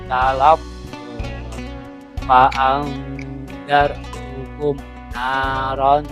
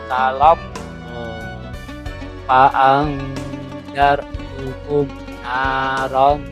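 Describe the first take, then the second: No difference in how they are said.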